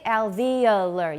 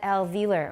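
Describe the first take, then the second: First: It has an extra uh syllable, four syllables. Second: It is said with only three syllables. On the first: "some in American say alveolar, 有个 uh" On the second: "我只有三个音节"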